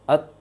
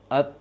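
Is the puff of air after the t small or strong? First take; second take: small; small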